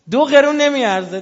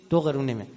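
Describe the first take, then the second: First: High, loud preacher's cry; emphatic shout. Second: Said in the usual way. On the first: Real, not acted. Preacher scorning prayer without allegiance, loud high cry. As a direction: fling the verdict at the crowd.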